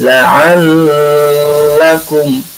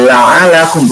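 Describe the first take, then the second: First: "la'allakum" slow, the doubled l held; drawn-out "la'allakum" with the l clearly held; "la'allakum" recited slowly with its stress on the held l; correct reading. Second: "la'alakum" with the l short and single; "la'alakum" said quickly, no held l; rushed "la'alakum"; wrong reading. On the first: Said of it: "bukan gitu, tapi la'allakum". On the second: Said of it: "Jadi jangan la'alakum". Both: Shown as a demonstration.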